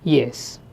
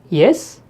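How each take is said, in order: First: The pitch falls at the end of the word. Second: The pitch rises at the end of the word. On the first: It answers a question. "yes with a falling tone is an answer" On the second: It asks a question. "the same word spoken with a rising tone"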